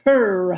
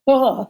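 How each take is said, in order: First: The final consonant is pronounced. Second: The final consonant is dropped. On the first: The speaker calls it right. "you have to pronounce the final consonant" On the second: The speaker calls it wrong. "You don't say huh"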